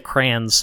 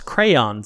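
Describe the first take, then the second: First: The word is squeezed into one syllable. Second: The word is said with two syllables. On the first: The speaker calls it wrong. "I say crayons. Yeah, C-R-A-N-S" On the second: The speaker calls it right. "no, it's crayons"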